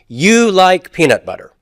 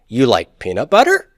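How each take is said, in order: First: The voice falls at the end. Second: The voice rises at the end. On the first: It states a fact. "That's a statement of fact" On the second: It asks a yes-no question. "I raise the intonation upwards"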